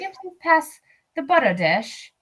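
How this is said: A refined accent is used, only subtly marked. "She's maybe. Like"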